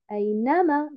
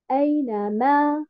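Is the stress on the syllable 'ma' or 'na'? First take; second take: na; ma. First: The stress falls on the syllable 'na'. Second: The stress falls on the syllable 'ma'. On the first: The speaker calls it right. "j'ai mis un nabr sur Harakat al-Noun" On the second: The speaker calls it wrong. "Et non pas Aïnama, je ne mets pas un nabr sur Harakat al-Mim"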